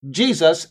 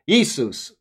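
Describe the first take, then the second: First: The name begins with a J sound. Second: The name begins with a Y sound. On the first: This is the modern English pronunciation. "this stayed the J, but now we pronounce it Jesus" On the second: This is the older pronunciation from earlier languages. "instead of Jesus"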